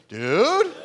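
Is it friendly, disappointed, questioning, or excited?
questioning. It rises like a question.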